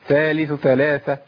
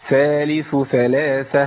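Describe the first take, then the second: First: The th sounds are rushed together. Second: Each th sound is clearly articulated. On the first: The speaker calls it wrong. "انا بجري يا شيخ" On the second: The speaker calls it right. "ابين الثائين"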